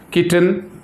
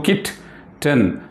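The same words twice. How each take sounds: First: Said in the usual way. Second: "kitten" slowly split into "kit", pause, "ten"; syllable by syllable. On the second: Shown as a demonstration. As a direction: sound out "kitten" in two beats, kit... ten. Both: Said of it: "two syllables".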